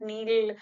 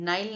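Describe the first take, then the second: First: The vowel sounds like 'ee'. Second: The vowel sounds like 'eye'. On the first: The speaker calls it wrong. "Actually नील is not the correct pronunciation" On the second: The speaker calls it right. "इसको नाइल भी प्रोनाउ pronounce किया जाता है"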